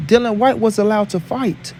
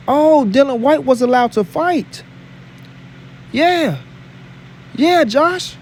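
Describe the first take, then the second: First: Said in the usual way. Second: Slower, higher-pitched sarcastic taunt; mock surprise. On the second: Real, not acted. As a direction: draw it out with pointed mock amazement. Taunting Josh over double standard.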